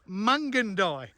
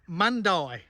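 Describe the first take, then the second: First: The name includes the middle 'gan' syllable. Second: The name lacks the middle 'gan' syllable. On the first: The speaker calls it right. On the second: The speaker calls it wrong.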